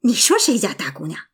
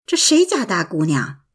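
First: Quick, understated indignant retort; mildly annoyed. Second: A touch of bewilderment, asked low-key; mildly puzzled. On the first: Friend retorts about his own daughter, mildly annoyed. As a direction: throw the question back fast, a touch cross. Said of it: "朋友生气地说". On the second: Narrator asks friend about the unknown girl, mildly puzzled. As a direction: ask it blankly, not knowing who she is. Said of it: "我茫然地问". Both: A narrator's reading.

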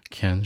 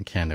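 First: "can" held level, like a Mandarin first tone; level, even "can". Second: "can的" (can't) tipping downward like a Mandarin fourth tone; slightly falling "can't". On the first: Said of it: "can是一个一声". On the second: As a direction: let "can的" fall toward a fourth tone. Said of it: "有点往四声上走". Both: Shown as a demonstration.

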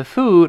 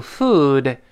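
First: "food" said with the wrong vowel, like Chinese "fu"; a Chinese-style "fu-de" for "food"; mispronounced vowel. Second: "food" with a long, rounded "oo"; correct vowel. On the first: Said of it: "不要读food啊". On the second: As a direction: shape the lips for a drawn-out "food". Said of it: "注意这口型啊". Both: Shown as a demonstration.

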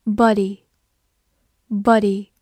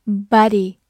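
First: Slow "body" with a crisp t-free British d; drawn-out "body" with British short o; British-style pronunciation. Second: "body" said the American way; "body" with American ah vowel and light tapped d; American pronunciation. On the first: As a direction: say "body" slowly in the non-American way. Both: Shown as a demonstration. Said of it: "美式发音，body".

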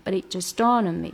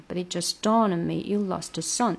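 First: Said in the usual way. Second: "but it" run together fast, "dawned" and "son" stressed; teacher demo of fast linking; quick but it. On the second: Shown as a demonstration. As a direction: rush "but it", hit "dawned". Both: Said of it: "这个but it要稍微快一点".

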